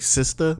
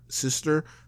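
First: The final r sound is dropped. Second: The final r sound is clearly pronounced. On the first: "You're supposed to say sister" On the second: "I like that I say it with the ER"

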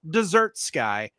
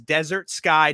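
First: The stress is on the second syllable. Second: The stress is on the first syllable. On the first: The title would refer to a sweet course. The speaker calls it wrong. "not Desert Sky, as much as some of you may want to read it that way. There's no dessert in it" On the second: The title names a dry, barren land. The speaker calls it right. "The film is Desert Sky"

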